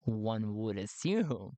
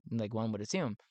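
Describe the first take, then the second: First: Drawn-out, low "One would assume"; slow and low, weighing each word; slow, pointed repeat. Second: Said in the usual way. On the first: Real, not acted. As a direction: stretch the words out deliberately. Repeats it slowly for emphasis.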